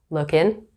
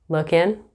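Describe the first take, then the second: The two takes are said the same way.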